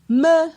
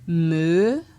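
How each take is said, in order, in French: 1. La syllabe est prononcée sur un ton haut. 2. La syllabe est prononcée sur un ton montant. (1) "avec un ton haut" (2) "pour un ton montant"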